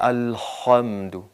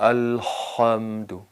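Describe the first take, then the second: No difference in how they are said.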